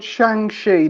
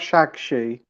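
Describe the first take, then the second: First: The first syllable ends with an 'ng' sound. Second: The first syllable ends with a 'g' sound. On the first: The speaker calls it right. "called Shang-Chi" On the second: The speaker calls it wrong. "not Shag-Chi"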